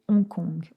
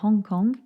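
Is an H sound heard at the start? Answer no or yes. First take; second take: no; yes. First: The word begins without any H sound. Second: The word begins with an audible H sound. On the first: "en français, ... On ne prononce pas le H" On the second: "En anglais, on dit"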